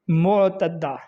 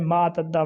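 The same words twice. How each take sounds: First: معتدہ opening "mo", as "mo-tadda"; careful "mo-tadda" for معتدہ; correct pronunciation. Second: معتدہ opening "maa", as "maa-tadda"; common mispronunciation. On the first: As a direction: say معتدہ with a rounded first vowel. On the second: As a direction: say معتدہ with an "a" first vowel. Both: Shown as a demonstration. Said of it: "لفظ غلط ہے".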